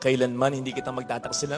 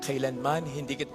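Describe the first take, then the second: First: It is said smoothly, straight through without stopping. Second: It is said haltingly, breaking off with a cough.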